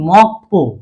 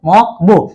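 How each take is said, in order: First: The second syllable starts with a tense consonant. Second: The second syllable starts with a plain consonant. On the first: The speaker calls it right. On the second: The speaker calls it wrong.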